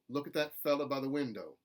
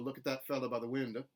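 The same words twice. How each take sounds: First: The final o in window is kept. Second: Window ends in an uh sound. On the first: "I think is more contemporary Southern" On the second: "which is more general Southern"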